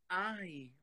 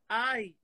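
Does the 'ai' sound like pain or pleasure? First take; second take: pleasure; pain. First: The 'ai' sounds like a moan of pleasure. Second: The 'ai' sounds like a cry of pain.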